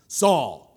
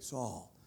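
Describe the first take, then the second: First: The name is called out sharply and forcefully. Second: The name is spoken softly and warmly. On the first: The speaker is demanding attention and asserting authority. "which is demanding attention. It's demanding authority" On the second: The speaker is showing affection once attention is gained. "then you would say it in an endearing way"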